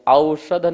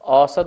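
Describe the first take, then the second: First: The first vowel is the diphthong 'au'. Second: The first vowel is the plain vowel 'o'. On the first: People do not usually say it this way. "नहीं बोलते हैं" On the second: This is how people usually say it. "बोलते हैं"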